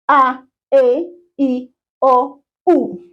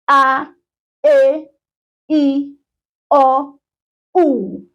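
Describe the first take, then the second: First: The vowels are said a little faster. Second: The vowels are said at a normal pace.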